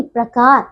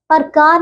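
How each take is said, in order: First: प्रकार with a joined "pr": pra-kaar; correct pronunciation. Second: प्रकार broken up as "par-kaar"; mispronunciation. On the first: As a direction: join p and r in प्रकार. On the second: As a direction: put the vowel before r in प्रकार. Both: Shown as a demonstration. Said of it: "प्रकार नहीं".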